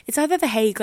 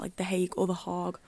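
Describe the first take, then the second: First: The Hague said "the hake", rhyming with bake. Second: The Hague said "the hahg", with an open ah. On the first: Sounding out the city name for listeners: "Hague" like hake. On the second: Comparing two ways to say the city: "Hague" as hahg. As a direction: say "Hague" with a broad AH and hard G. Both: Shown as a demonstration. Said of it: "we don't know how to pronounce it".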